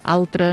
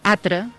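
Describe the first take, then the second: First: The word is said with the L sound. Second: The word is said without the L sound. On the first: This is the formal standard form. The speaker calls it right. "en els registres més formals doncs, hi ha d'haver la L" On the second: This is a colloquial dialect form. The speaker calls it wrong. "Hi ha alguns parlars que diuen atre"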